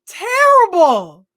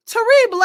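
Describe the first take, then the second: First: TERRIBLE drawn out slow, high on the first syllable; drawn-out verdict. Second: Terrible twisted into "tuh-REE-bluh", high pitched; playful mispronunciation. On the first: Co-host judging the actor's awful accent, drawn-out high TERRIBLE. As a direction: stretch TERRIBLE high and loud, then let it fall. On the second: Co-host mocking the awful accent, Terrible said as "tuh-REE-bluh". Repeats verdict with twisted pronunciation. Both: Real, not acted.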